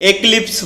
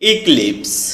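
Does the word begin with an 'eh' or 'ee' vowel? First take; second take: eh; ee. First: The word begins with an 'eh' vowel. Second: The word begins with an 'ee' vowel. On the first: The speaker calls it wrong. "এটাকে আমরা এক্লিপস বলে থাকি" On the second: The speaker calls it right. "সঠিক উচ্চারণ হচ্ছে ইক্লিপস"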